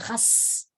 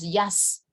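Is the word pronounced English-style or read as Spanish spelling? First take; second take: Spanish spelling; English-style. First: It is read letter by letter as Spanish spelling. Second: It keeps the English pronunciation of the word. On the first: The speaker calls it wrong. "nadie dice yo toco el jazz" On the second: The speaker calls it right. "Todos pronunciamos jazz"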